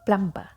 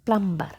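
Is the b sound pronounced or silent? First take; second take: pronounced; pronounced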